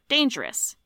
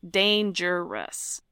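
First: The middle vowel is dropped, giving two syllables. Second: All three syllables are fully pronounced.

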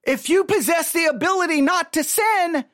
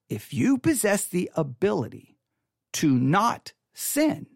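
First: It is said at normal speed. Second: It is said slowly.

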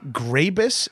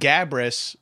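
First: The r sound comes right after the g. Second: The r sound comes right after the b. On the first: The speaker calls it wrong. "people say it wrong all the time" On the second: The speaker calls it right. "that's completely correct"

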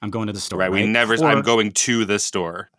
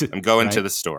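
First: The word 'to' is fully pronounced as 'two'. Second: The word 'to' is reduced to a weak 'ta'. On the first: The speaker calls it wrong. "Who says that? An alien" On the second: The speaker calls it right. "We say ta or te"

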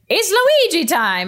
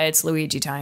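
First: It is said with lively, excited energy. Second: It is said flatly, with no energy. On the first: It is the character's own enthusiastic catchphrase. "everyone has their catchphrase, so Luigi was like" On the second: The player is unenthused because she is losing. "she just like was deadpan"

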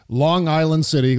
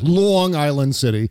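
First: It is said in a plain, neutral accent. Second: It is said in a local New York accent.

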